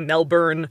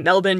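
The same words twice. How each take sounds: First: The second syllable is said with a full vowel. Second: The second syllable is reduced to a weak vowel. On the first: The speaker calls it wrong. "You can't say Melbourne" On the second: The speaker calls it right. "You have to say Melbourne"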